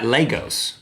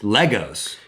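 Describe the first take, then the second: First: The first syllable sounds like 'lay'. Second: The first syllable sounds like 'leg'. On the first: The speaker calls it wrong. "It's not Legos" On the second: The speaker calls it right. "It's Legos"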